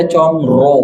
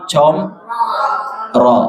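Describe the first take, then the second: First: Comro with rounded lips; pursed comro; wrong comro. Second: Comro drawn out, mouth wide open; very slow open comro; correct comro. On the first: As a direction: comro said pouted. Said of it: "Jangan dibaca comro". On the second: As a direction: comro stretched with jaw dropped. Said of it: "tapi comro". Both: Shown as a demonstration.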